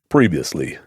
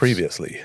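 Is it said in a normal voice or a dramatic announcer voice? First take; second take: announcer; normal. First: It is said in a dramatic announcer voice. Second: It is said in a normal speaking voice.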